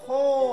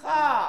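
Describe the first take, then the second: First: The vowel is rounded like o. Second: The vowel is open, lips unrounded. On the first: The speaker calls it wrong. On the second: The speaker calls it right. "Bunyi o-nya tidak dibentuk oleh mulut"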